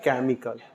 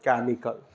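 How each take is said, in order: First: The word begins with a k sound. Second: The same.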